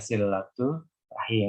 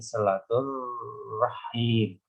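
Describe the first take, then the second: First: The two words are said separately, without linking. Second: The two words are joined with a linking r. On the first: "yang benar ya silatu rahim" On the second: "kalau diwasalkan ini silatur rahim"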